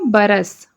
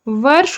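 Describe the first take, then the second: First: It starts with b and has an added vowel. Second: It starts with v and ends in a consonant cluster. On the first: This is the Chhattisgarhi form. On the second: This is the standard Hindi form.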